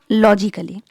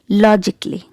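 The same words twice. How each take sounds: First: An extra vowel is sounded before the ending. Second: No extra vowel is sounded before the ending. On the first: The speaker calls it wrong. "It's not logically" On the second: The speaker calls it right. "letter A is silent. So keep it silent and pronounce it like logically"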